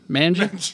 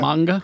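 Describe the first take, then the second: First: The middle consonant is a j sound. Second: The middle consonant is a hard g sound. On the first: The speaker calls it wrong. "I've been saying manja" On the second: The speaker calls it right. "It's manga"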